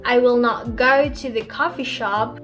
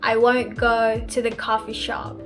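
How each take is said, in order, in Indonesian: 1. Kata 'will not' diucapkan secara lengkap. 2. 'Will not' disingkat menjadi 'won't'.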